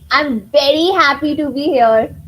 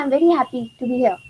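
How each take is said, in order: First: It is said warmly, with lively happy feeling. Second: It is said flatly, without much feeling. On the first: The speaker calls it right. "the other way is" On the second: The speaker calls it wrong. "If I just say it like this"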